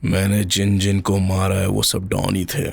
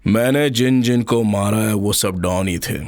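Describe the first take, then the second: First: The line is spoken softly and low. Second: The line is spoken with little depth. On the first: "ये थोड़ा सा तू लो बोल रहा है" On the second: "इसमें थोड़ा सा और डेप्थ ला"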